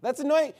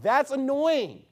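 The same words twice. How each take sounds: First: "annoying" punched high and quick; stress on ANNOYING. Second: THAT'S drawn out and high, slowly; stress on THAT'S. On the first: Pastor repeats his complaint to the congregation, punching "annoying". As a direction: hit the word "annoying". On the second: Pastor tells the congregation what annoys him, stressing "That's" slowly. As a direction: lean slow and hard on "That's". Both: Real, not acted. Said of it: "here's the reality".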